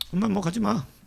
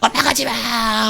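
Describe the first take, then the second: First: It is said flatly without any urgency. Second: It is cried out desperately and loudly.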